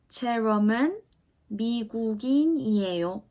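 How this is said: The voice falls slightly at the end.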